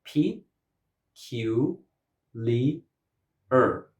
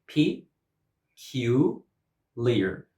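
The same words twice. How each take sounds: First: Broken into four separate syllables; "P, Q, Li, Er" as four beats with gaps. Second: Broken into three beats, the last one "leer" run together; "leer" as a single final syllable. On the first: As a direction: sound out P, Q, Li, Er one at a time. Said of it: "four vowel sounds". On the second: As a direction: sound out P, Q, leer with gaps. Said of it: "this word has three syllables". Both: Shown as a demonstration.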